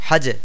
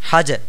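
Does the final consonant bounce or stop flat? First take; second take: bounce; bounce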